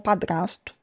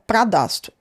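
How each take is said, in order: First: The r comes in the second syllable. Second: The r comes in the first syllable. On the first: The speaker calls it right. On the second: The speaker calls it wrong.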